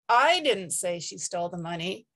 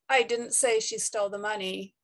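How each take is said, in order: First: The stress falls on the word I. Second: The stress falls on the word didn't. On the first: Somebody else said it. "it implies that somebody said it, but it wasn't me" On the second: The statement is being denied. "We normally stress didn't"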